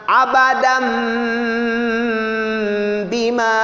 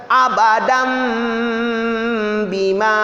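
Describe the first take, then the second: The two takes are said the same way.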